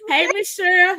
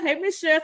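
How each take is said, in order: First: Laughing greeting. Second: Said in the usual way. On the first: Real, not acted.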